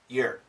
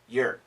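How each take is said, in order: First: The vowel is reduced and weak. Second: The vowel is reduced and weak.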